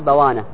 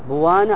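First: The first syllable has the vowel a. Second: The first syllable has the vowel u. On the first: "أو بفتحها" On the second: "بضم الباء"

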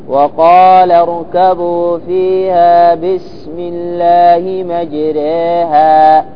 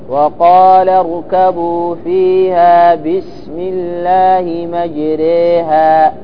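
No difference in how they are said.

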